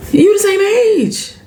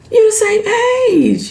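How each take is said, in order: First: High, slow, disbelieving; drawn-out exasperated protest. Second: High, slow, disbelieving, you stressed; drawn-out exasperated protest. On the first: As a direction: spell it out in disbelief. Exasperated at Aunt Vi. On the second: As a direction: press the point again, slower. Repeats, exasperated. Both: Real, not acted.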